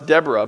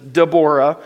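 First: The name is said in the usual English way. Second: The name is said in the Hebrew way. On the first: "you're like, no, that's Deborah" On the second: "the actual Hebrew pronunciation is Deborah"

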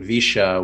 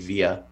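First: It is said with a Cordoba Spanish accent. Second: It is said with a Mexican Spanish accent.

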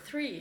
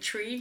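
First: The word starts with a th sound. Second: The word starts with a plain t sound. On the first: The speaker calls it right. "it's just so strange for me to have to go to the th sound" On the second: The speaker calls it wrong. "you end up saying tree"

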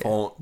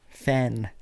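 First: The vowel sounds like the one in 'font'. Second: The vowel sounds like the one in 'fan'. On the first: The speaker calls it wrong. "If it was F-O, then I would get it" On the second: The speaker calls it right. "It has literally F-A-N, fan"

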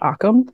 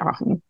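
First: The middle consonant is a k sound. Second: The middle consonant is an h sound. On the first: This is how non-native speakers say it. "they pronounced it Akam" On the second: This is the speaker's best guess at the native pronunciation. "I'm going to say Aham"

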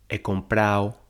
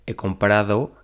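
First: The d in the ending is dropped. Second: The d in the ending is pronounced. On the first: The speaker calls it wrong. "Dicen he comprado" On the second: The speaker calls it right. "en lugar de he comprado"

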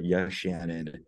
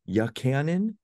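First: The middle consonant is an 'sh' sound. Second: The middle consonant is a 'ch' sound. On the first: The speaker calls it right. "it is a CH, but it has an SH sound" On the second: The speaker calls it wrong. "what I get more than anything"

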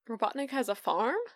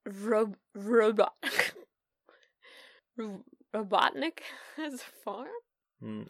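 First: It is said in a plain, natural accent. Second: It is said in a put-on French accent.

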